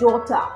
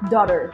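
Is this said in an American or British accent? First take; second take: British; American. First: The T is clear and the R is dropped. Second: The T sounds like D and the R is pronounced. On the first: "British হলে বলবে ডটা" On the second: "Americans, they say daughter"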